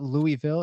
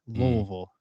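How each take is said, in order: First: The name is said with full, clear syllables. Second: The name is said mumbled, as if with gravel. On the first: The speaker calls it wrong. "It's not Louisville" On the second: The speaker calls it right. "like you have gravel in your mouth"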